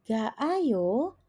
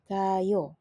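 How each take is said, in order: First: The two vowels are said as separate syllables. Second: The two vowels are merged into one syllable. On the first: The speaker calls it wrong. "bukannya menjadi berbunyi ga ayo" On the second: The speaker calls it right. "melainkan dia langsung menjadi gayo"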